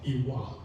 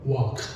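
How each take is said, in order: First: It starts with an added E vowel. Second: It starts with a glottal catch, no front vowel.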